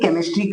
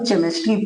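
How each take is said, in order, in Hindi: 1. यह शब्द 'k' ध्वनि से शुरू होता है। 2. यह शब्द 'ch' ध्वनि से शुरू होता है। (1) "उच्चारण क्या कहेंगे, केमिस्ट्री कहेंगे" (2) "चे होता है, ... गलत है"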